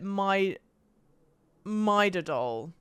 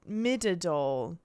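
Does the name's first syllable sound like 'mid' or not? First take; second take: not mid; mid. First: The first syllable does not sound like 'mid'. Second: The first syllable sounds like 'mid'. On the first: "I would have pronounced it" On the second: "I assume it's how you're meant to say it because they call her Mid"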